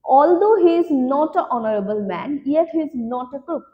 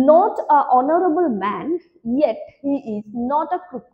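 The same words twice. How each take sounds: First: Very slow, clear sentence read; slow dictation. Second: Very slow, word by word sentence read; slow dictation. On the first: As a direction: read the sentence slowly, one word at a time. (খুব ধীরে স্পষ্ট করে পড়া) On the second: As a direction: read it out slowly, word by word, for the class. (ধীরে ধীরে বাক্য পড়া) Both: Shown as a demonstration. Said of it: "next বলছে".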